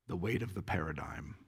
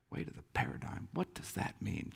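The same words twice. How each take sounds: First: Low, soft stab at a Scottish brogue; attempted Scottish accent. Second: Half-whispered repeat, pondering; quiet puzzlement. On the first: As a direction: quote him in a faint Scottish accent. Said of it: "with a Scottish accent, which I can't do". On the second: Retold or imitated. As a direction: murmur it to yourself, puzzled. Puzzling over the quoted phrase.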